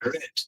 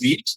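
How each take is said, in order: First: The vowel is short, like in 'red'. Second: The vowel is long, like in 'reed'. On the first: The action happened in the past. "যেটা past form ওইটার উচ্চারণ হচ্ছে রেড" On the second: The action happens now or habitually. "যেটা present form ওইটার উচ্চারণ হচ্ছে রিড"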